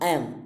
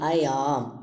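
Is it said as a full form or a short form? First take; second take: short form; full form. First: The words are run together in a reduced form. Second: Both words are said in full, strongly.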